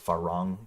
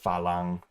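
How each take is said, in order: First: The second consonant is an R sound. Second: The second consonant is an L sound.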